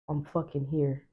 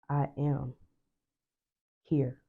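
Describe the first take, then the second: First: It is said in an angry way. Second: It is said dramatically, like a stage actor.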